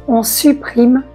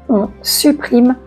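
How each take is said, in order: The two takes are said the same way.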